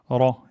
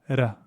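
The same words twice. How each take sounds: First: The r sound is heavy and emphatic. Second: The r sound is light and plain. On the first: The speaker calls it right. "le ra, il est emphatique" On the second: The speaker calls it wrong. "et pas ra"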